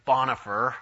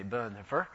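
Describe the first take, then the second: First: Bonhoeffer said the American way, open "BAHN-uh-fer"; anglicized pronunciation. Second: Bonhoeffer said the German way, short rounded first vowel "Buhn-"; German pronunciation. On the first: Lecturer showing the common English mispronunciation, Bonhoeffer as "BAHN-uh-fer". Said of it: "we say Bonhoeffer, which is not right at all". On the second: Lecturer showing how Germans say the name, German pronunciation of Bonhoeffer. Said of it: "the Germans actually say". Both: Shown as a demonstration.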